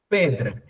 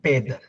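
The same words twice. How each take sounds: First: Every sound of the word is pronounced. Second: A sound in the middle is dropped. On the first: "a palavra pedra" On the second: "Muita gente lê assim, pedra. ... houve uma perda aí no meio"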